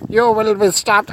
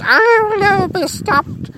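First: Raised, loud theatrical command; defiant shout. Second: Very high, loud creature cry; evil sock wail. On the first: Detective warning an evil sock, defiant shout. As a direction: pronounce doom on the monster at full voice. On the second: Evil sock answering the detective, very high wail. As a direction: wail it back as a squealing sock. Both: Acted.

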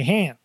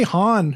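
First: Han rhyming with "ran"; movie's flat-vowel Han. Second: Han with "ah", HAHN; broad-vowel Han. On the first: Host showing how the movie says it, flat-vowel Han. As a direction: say Han with a short a. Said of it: "they say Han". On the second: Host puzzling over his own habit, Han as HAHN. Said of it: "why do I say Han". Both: Shown as a demonstration.

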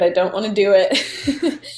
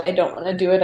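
First: Laughing through a half-joking whine. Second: Said in the usual way. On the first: Retold or imitated. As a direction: giggle out the protest. Dreading her first wedding.

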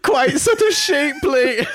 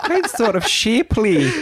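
First: High mock echo of the clip. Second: A light mock Scottish accent, slow and laughing. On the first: Host echoing the judge's line from the clip, high and laughing. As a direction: quote the clip back much higher, slow and drawn out, laughing. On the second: Co-host copying the Scottish baker from the clip, mock Scottish accent. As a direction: say it back in a Scottish lilt, drawn out. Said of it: "looking forward to your Scottish accent".

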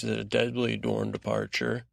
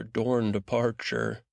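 First: "deadly" rising, then "Dorne departure"; alliterative stress. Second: "Dorne departure" drawn out slowly, each D hit; alliteration stress. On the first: Host piling on alliteration for the recap, stressing each D. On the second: Host savouring alliteration in his episode recap, slow and stressed. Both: Shown as a demonstration. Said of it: "if we haven't got enough alliteration".

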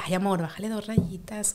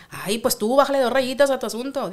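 First: Soft, easy request; gentle version of bájale dos rayitas; calm, gentle. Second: Sharp northern Mexican snipe with higher pitch; tú bájale dos rayitas said with sass; snippy, northern accent. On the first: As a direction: say it tenderly, no edge. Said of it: "es un abanico de sonidos". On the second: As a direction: snap it with a norteño twang. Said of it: "Pero si ya te dicen". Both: Shown as a demonstration.

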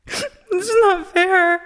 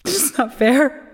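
First: Sobbing, much higher and slow; crying. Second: Slow, rising, near tears; tearful. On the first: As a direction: let the sob break through. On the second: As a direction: hold back the tears, slowly. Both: Acted. Grieving sister breaks down.

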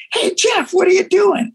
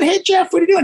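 First: High shout from a car window; calling out. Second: Calling out again. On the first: From the car, calling to Jeff on the street, high shout. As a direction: yell across the street to him. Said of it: "I go". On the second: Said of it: "I just said". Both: Retold or imitated.

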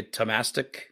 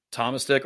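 First: Tomastic stressed on the second syllable, "tuh-MASS-tic"; the other pronunciation. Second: Said in the usual way. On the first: Retold or imitated. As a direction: say Tomastic as tuh-MASS-tick, short A in the middle. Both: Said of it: "or as you would say".

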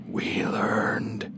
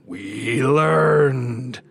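First: Eerie drawn-out whisper; whispering voices. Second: Long, drawn-out louder monstrous cry; growling voices. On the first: The voices fill the narrator's head, eerie whisper. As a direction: whisper it slowly, all air. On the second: The growing voices close in on Bill, menacing swelling cry. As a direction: swell it slowly into a menacing roar. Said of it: "deepening into growls". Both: A narrator's reading.

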